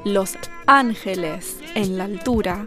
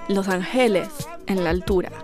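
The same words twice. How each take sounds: First: The syllables carry their usual Spanish stress. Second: The stress falls on unusual, shifted syllables. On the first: "Instead of saying" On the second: "she just totally rearranged the emphasis of the syllable"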